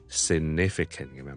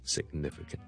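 First: No g closure is held before the n sound. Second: A g closure is held before the n sound. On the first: The speaker calls it wrong. "就不好呢将它读成significant" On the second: The speaker calls it right. "但我g 出来之前呢就做了个n 音"

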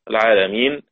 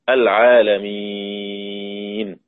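First: The long vowel is held only briefly. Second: The long vowel is held very long.

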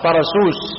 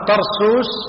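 First: The first syllable is said with an open a vowel. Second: The first syllable is said without an open a. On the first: The speaker calls it right. "غلط، طرسوس" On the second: The speaker calls it wrong. "وأما طرسوس هذا خطأ"

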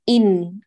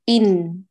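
The two takes are said the same way.

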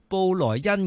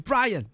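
First: The name is said with Mandarin pronunciation. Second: The name is said with English pronunciation. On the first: "即系国语讲布莱恩咁样" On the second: "用英文讲系Brian"

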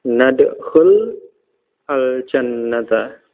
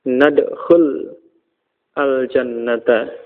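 No difference in how they are said.

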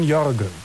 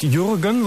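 First: The first vowel is an ö sound. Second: The first vowel is an ü sound. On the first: The speaker calls it right. "Jürgen mit Ö ist richtig" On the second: The speaker calls it wrong. "also nicht Jürgen"

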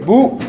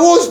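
First: The word ends without any s sound. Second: The word ends with a clear s sound. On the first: "Así como el costeño, como el allá de Bolívar" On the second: "Diga bus"

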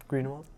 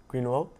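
The two takes are said the same way.

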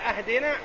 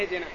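First: The word begins with an 'a' vowel. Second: The word begins with an 'i' vowel. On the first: It asks for a gift to be given. The speaker calls it wrong. "كفتح همزة اهدنا ... وأما اهدنا مشتق من الهدية" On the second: It asks for guidance to the path of truth. The speaker calls it right. "هذا مشتق من الهداية"

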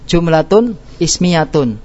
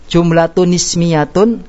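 First: The two words are read separately, with a break. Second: The two words are read joined without a break. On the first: "kalau kita baca putus ya" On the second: "Kalau kita baca sambung"

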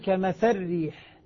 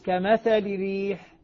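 First: The L and its vowel merge into the R. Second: The L carries a brief, reduced i vowel. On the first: "إذا أدغمت أقول ... اللام ذهبت وذهبت حركتها" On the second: "في الاختلاس"

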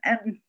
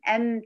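First: The m sounds muffled with the nose blocked. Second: The m sounds with full nasal resonance. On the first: The speaker calls it wrong. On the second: The speaker calls it right.

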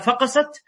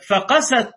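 First: The stress falls on the first syllable. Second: The stress falls on the second syllable. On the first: Something hatched. The speaker calls it wrong. "وتلك من الفقس" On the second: Their hearts became hard. The speaker calls it right. "هكذا"

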